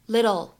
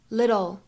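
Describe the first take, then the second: First: The middle t is a soft, quick flap. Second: The same.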